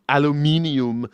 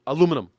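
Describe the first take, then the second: First: The word is said with five syllables. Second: The word is said with four syllables. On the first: "that extra extra syllable in there" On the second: "It's it's faster"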